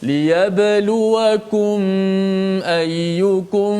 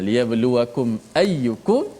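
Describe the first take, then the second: First: The m is followed by a prolonged nasal hum. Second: The m is closed clearly without a lengthened nasal. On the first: The speaker calls it wrong. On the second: The speaker calls it right.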